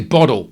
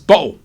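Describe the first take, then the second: First: The middle consonant is said as a d. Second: The middle consonant is dropped, with no t. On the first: "you put D's in it. You say bottle" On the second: "We don't typically do T's at the end. And we definitely don't do T's in the middle"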